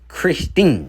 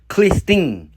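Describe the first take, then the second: First: The name is said with an R sound. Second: The name is said with an L sound. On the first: The speaker calls it right. "they would still pronounce it as Christine" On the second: The speaker calls it wrong. "we on the outside would erroneously say Clistin"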